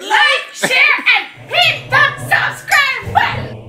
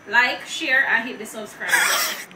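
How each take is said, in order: First: It is said with lively enthusiasm. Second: It is said flatly, with little energy.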